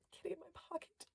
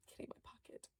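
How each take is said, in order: First: Higher, softer, thrilled repeat; delighted squeak. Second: Breathless gasped whisper, fast; excited whisper. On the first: To viewers, repeating the toy's name, a soft high coo. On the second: To viewers, thrilled at finding the toy, a gasped whisper. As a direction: hush it out in delight. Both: Real, not acted.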